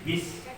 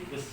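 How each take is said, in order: First: The vowel is a clear, spread 'i' sound. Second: The vowel is a lax, open 'e' sound. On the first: The speaker calls it right. "bertemu sin bis" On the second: The speaker calls it wrong. "malas menggerakkan mulut jadi bes"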